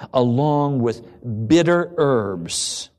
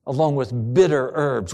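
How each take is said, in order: First: Slowly drawn out, stressing bitter; bitter herbs drawn out heavily. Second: Said in the usual way. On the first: Shown as a demonstration.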